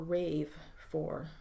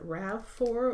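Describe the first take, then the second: First: The first word has a long 'ay' vowel. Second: The first word has a short 'a' vowel. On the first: "Is it RAV four or RAVE four?" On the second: "Is it RAV four or RAVE four?"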